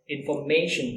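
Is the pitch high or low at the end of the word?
low. It has standard stress, pitch low at the end.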